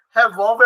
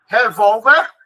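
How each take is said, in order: First: Said in the usual way. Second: Revólver with a loud second syllable; Revólver said loudly, leaning on VÓL; stress on second syllable. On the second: Shown as a demonstration. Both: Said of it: "a sílaba mais forte é a segunda".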